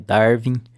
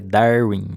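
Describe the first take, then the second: First: The middle consonant is a v sound. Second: The middle consonant is a w sound. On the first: The speaker calls it wrong. "não é Darwin, não é com V" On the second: The speaker calls it right. "é Darwin"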